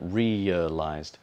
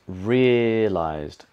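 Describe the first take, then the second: First: The first vowel glides as a diphthong. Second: The first vowel is one long steady sound. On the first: "it might be in, in the dictionary as ear" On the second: "she doesn't make it a diphthong. She just lengthens that first part of the vowel"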